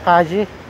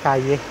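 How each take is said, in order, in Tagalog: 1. Ang double L ay binibigkas na tunog J. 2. Ang double L ay binibigkas na tunog Y. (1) "basa nila Kaji. Kaji, parang J" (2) "Pero sa kanila, basa nila yan Calle. Pagka uh, double L, pronounce nila Asway yan"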